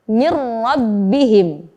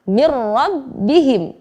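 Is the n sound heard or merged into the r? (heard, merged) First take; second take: merged; merged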